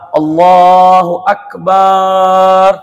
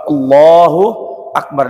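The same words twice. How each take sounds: First: The vowel after the b is drawn out long. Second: The vowel after the b is short. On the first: It can mean a drum. The speaker calls it wrong. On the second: God is the greatest. The speaker calls it right.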